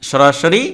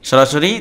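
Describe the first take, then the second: Both takes have the same delivery.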